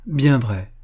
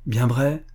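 First: "bien vrai" firmer, falling at the end; "bien vrai" as a settled reply; confirming answer. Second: "Bien vrai" rising at the end; "Bien vrai" with a questioning lift; hopeful question. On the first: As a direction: affirm "bien vrai" with a closing fall. Young man confirms the promise. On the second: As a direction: ask "Bien vrai" as a question, seeking confirmation. Child seeks confirmation of promise. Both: A narrator's reading.

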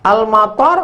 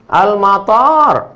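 First: Quick AL-MATAR with a short final "tar"; short vowels. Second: AL-MATAR with a drawn-out "taaar"; long vowel. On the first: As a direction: keep the last A of "Al-matar" short. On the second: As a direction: stretch the last A of "Al-matar" long. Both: Shown as a demonstration. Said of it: "Intonasi panjang pendek".

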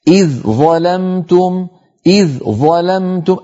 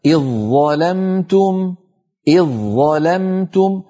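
First: Slow إذ ظلمتم, light dh kept apart from heavy ẓ; unmerged dhal. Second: Slow iẓ-ẓalamtum for إذ ظلمتم; merged into za. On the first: Teacher trying the hard way, both consonants separate. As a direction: sound the ذ of إذ fully before ظلمتم. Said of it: "حاولوا أن تنطقوها مظهرة". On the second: Teacher showing the easier way, one doubled ẓ. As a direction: replace the ذ of إذ with a doubled heavy ظ. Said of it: "لو حولنا الذال إلى الظاء فقلنا". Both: Shown as a demonstration.

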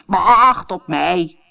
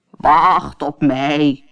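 First: Slow, drawn-out call; croaking frog calling. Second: Very slow, drawn-out call; frog calling. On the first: Frog calls after the running princess, slow and croaky. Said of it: "kwaakte de kikker". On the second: Frog calls as the princess leaves the table, slow. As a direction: call after her like a little frog. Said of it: "riep de kikker". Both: A narrator's reading.

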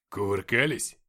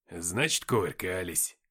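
First: Louder, low-pitched question on «Кувыркались». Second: «кувыркались» drawn out low, falling at the end; drawled. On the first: Acted. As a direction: ask «Кувыркались» out loud as a teasing question. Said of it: "спросил Никита". (громкий вопрос: «Кувыркались?») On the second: A narrator's reading. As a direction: stretch «кувыркались» into a knowing, low conclusion. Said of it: "протянул он и расплылся в улыбке". («кувыркались» протяжно и низко, с ухмылкой)

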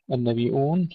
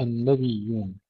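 First: "النبيون" read nabi-un, long i stopped by hamza. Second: "النبيون" read nabiyyun with doubled ya; without hamza. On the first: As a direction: break "النبيون" with a glottal stop before the last syllable. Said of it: "نافع يقرأها بالهمز". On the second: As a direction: glide through a doubled ya in "النبيون", no glottal stop. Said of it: "بدون همز". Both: Shown as a demonstration.

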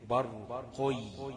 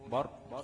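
First: برقي with the qaf bent to an i sound, slow and rising; wrong reading. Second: برق with the qaf kept in damma; correct reading. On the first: Tajweed teacher showing the wrong vowel: برقي with kasra. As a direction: drag out برقي with a kasra on the qaf, the learner's mistake. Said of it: "ما أقولش برقي". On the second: Tajweed teacher showing the right vowel: برق with damma. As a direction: say برق with u on the qaf, short and clean. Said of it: "خد بالك إن القاف إيه؟ مضمومة". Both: Shown as a demonstration.

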